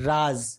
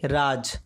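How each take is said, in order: First: "राज" ending in a buzzing z, as in "raaz"; nukta z sound. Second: "राज" ending in a hard j sound, as in "raaj"; plain j without nukta. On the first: Teacher showing learners the nukta word, "राज" with final z. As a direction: say "राज" with z in place of j. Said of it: "नुक्ता लगने के कारण इसका उच्चारण हो जाता है". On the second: Teacher showing learners the word without nukta, "राज" with final j. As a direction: say "राज" with a j, no z buzz. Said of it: "नुक्ता लगने के कारण इसका उच्चारण". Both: Shown as a demonstration.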